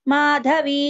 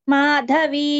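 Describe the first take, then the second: The two takes are said the same way.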